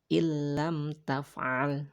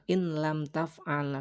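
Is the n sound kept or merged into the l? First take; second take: merged; kept. First: The n merges into a doubled l without nasal hum. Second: The n is pronounced separately before the l. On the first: The speaker calls it right. "dibacanya illam taf'al ya. Tidak ada dengung sama sekali" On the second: The speaker calls it wrong. "bukan in lam taf'al"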